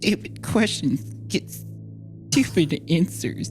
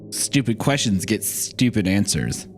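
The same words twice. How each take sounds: First: It is said in a shaky voice. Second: It is said in a steady voice.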